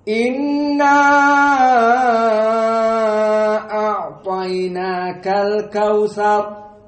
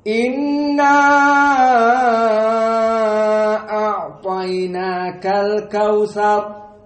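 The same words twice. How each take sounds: First: The vowel before the glottal stop is held very long. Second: The vowel before the glottal stop is held very long.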